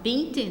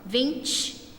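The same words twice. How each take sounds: First: It is said in a European Portuguese accent. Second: It is said in a Rio de Janeiro accent. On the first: "vinte do, do português, de Portugal" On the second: "vinte do carioca"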